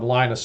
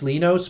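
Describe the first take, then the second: First: The name is said the American way. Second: The name is said the original, non-American way. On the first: The speaker calls it wrong. "since I'm a dirty American, I just keep calling him Linus" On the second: The speaker calls it right. "I think technically it's Linus"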